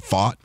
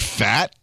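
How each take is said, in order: First: The vowel is like the one in caught. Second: The vowel is like the one in cat. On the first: It is a fancier version of the name. "he tries to be fancy and say fought" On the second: It is read the way it is spelled. "It looks like Fat"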